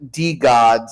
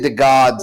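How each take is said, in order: First: The first part sounds like 'dee'. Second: The first part sounds like 'thuh'. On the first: The speaker calls it right. "I gotta say it correctly" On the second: The speaker calls it wrong. "I say the gods. I don't know why"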